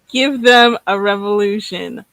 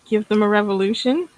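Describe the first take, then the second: First: It is said as a firm statement. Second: It is said like a hesitant question.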